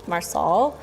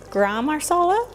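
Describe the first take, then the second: First: "Marsala" as mar-SAWL, final vowel swallowed; second-guessed pronunciation. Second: "marsala" as mar-SAH-luh, high questioning rise; unsure pronunciation. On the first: Cook second-guessing spice name, "Marsala" as unsure mar-SAWL. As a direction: try "Marsala" as a tentative mar-SAWL, rising. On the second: Cook guessing at spice name, "marsala" as questioning mar-SAH-luh. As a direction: try "marsala" with a full final "uh", pitched up. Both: Real, not acted. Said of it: "However you think you pronounce this".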